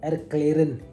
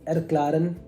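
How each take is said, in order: First: The vowel after kl sounds like eh. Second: The vowel after kl sounds like ah.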